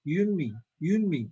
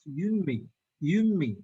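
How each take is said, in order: Both takes have the same delivery.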